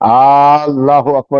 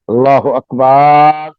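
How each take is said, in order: First: The vowel in the last syllable is short. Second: The vowel in the last syllable is long. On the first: God is the greatest. The speaker calls it right. "बिल्कुल लहन से पाक होना चाहिए।" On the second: The word turns into one meaning a drum. The speaker calls it wrong. "बा के साथ अलिफ लगा देता है। इसका भी माना गलत है।"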